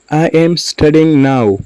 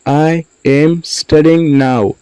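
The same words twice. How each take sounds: First: Said in the usual way. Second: Slow, separated words for learners. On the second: Shown as a demonstration. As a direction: say "I am studying now" slowly, words apart. Teacher repeats word by word.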